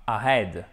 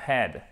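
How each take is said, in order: First: AHEAD with the H dropped; wrong AHEAD. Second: AHEAD with a weak schwa, stress on HEAD; corrected AHEAD. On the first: Teacher showing students the mistake, AHEAD with silent H. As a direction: say AHEAD without any breath of H. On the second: Teacher correcting students, AHEAD with clear H and schwa. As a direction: say AHEAD with an audible H, second syllable stressed. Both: Shown as a demonstration. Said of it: "faites bien attention, c'est pas ahead".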